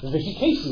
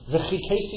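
First: The consonant is a soft breathy h sound. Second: The consonant is a harsh throaty ch sound. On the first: The speaker calls it wrong. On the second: The speaker calls it right.

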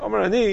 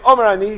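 First: It is said in a modest, humble tone. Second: It is said in a forceful, assertive tone. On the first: The speaker humbly offers his view if anyone is interested. The speaker calls it right. "He's saying it in a derech anivus" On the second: The speaker asserts his own authority. The speaker calls it wrong. "He's not saying Omer Ani"

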